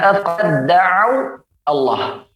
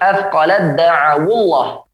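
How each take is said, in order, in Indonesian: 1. Kata-kata itu diucapkan terpisah tanpa sambungan. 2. Kata-kata itu digabung dengan vokal penghubung.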